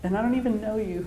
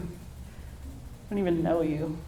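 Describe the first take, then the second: First: Said in the usual way. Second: Softer and much slower, tender; tender hush. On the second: Real, not acted. New mom softly marveling at her newborn daughter. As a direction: let it drop to an awed hush.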